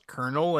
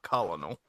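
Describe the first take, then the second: First: It sounds like kernel, with no middle syllable. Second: It is said as spelled, with three syllables. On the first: The speaker calls it right. "I learned it was colonel" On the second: The speaker calls it wrong. "not colonel ... I had only seen it written"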